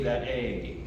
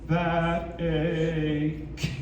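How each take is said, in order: First: The final K sound is missing. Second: The final K is released with a strong burst. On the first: The speaker calls it wrong. "what I heard it that A" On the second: The speaker calls it right. "You have to literally explode it"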